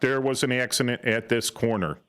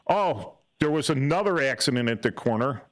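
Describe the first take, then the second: First: It is said in a flat, monotone voice. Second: It is said in a loaded, dramatic tone.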